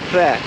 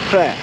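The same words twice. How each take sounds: First: A short, strained, choked pr sound opens it. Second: The same.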